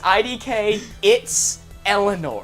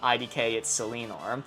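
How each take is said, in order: First: The 's' sound ends the word 'it's'. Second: The 's' sound starts the name. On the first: The speaker calls it right. "it's Eleanor" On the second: The speaker calls it wrong. "I continuously called them I D K It's Selenor"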